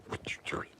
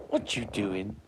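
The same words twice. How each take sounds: First: Hushed question to the dog; whispered question. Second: Said in the usual way. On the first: Real, not acted.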